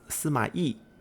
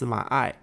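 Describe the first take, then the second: First: The given name is pronounced like 'yee'. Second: The given name is pronounced like 'eye'. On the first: This is the standard Chinese reading of the name. "in Chinese his name should actually be pronounced Sima Yi" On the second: This is an older reading, also used by the game. "there have been some accounts of his name being pronounced Sima Ai"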